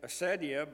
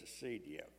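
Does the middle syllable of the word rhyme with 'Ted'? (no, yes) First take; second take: yes; no. First: The middle syllable rhymes with the word Ted. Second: The middle syllable does not rhyme with Ted. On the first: The speaker calls it wrong. "most of the words that end in ed are like ased, med, Ted" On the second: The speaker calls it right. "they have told me that it's acedia"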